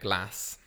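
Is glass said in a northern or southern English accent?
northern. It is said with a northern English accent.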